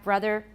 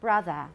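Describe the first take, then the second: First: The final vowel is r-colored, ending with r. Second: The final vowel is a plain schwa without r. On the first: "R-colored vowels" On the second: "which in British are"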